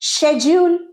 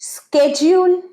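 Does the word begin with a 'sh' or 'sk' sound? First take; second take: sh; sk. First: The word begins with a 'sh' sound. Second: The word begins with a 'sk' sound. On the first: "শেডিউল British English" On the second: "স্কেডিউল American English"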